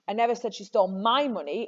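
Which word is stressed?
my. The stress is on "my".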